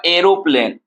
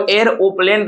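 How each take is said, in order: First: Said in the usual way. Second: एरोप्लेन broken into three parts; split into syllables. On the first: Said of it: "इसको जो हम लोग syllable count करते". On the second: Shown as a demonstration. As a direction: say एरोप्लेन part by part, air-o-plane. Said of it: "आपने इतना part में तोड़ा".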